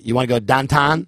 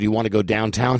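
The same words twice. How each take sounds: First: "downtown" said as "dahntahn", flat Pittsburgh vowels; mimicking how Janet's family says "downtown", Pittsburgh accent. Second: Said in the usual way. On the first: Shown as a demonstration. Showing the hosts a Pittsburgh downtown, light Pittsburgh accent. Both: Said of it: "here's what they say".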